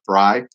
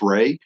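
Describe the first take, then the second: First: The vowel sounds like the one in 'eye'. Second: The vowel sounds like the one in 'day'. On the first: "like samurai" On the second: "Maybe it's Ray"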